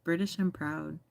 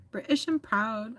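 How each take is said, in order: First: Said in the usual way. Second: Higher-pitched amateur British accent; badly faked British accent; attempted British accent. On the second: Shown as a demonstration. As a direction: have a clumsy go at a British accent. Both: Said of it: "I don't know how to do an accent".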